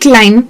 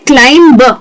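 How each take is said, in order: First: The word ends on m with no b sound. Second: The word ends with an audible b sound. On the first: The speaker calls it right. "इसे कहना चाहिए क्लाइम" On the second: The speaker calls it wrong. "ज्यादातर लोग उसे कहते हैं क्लाइंब"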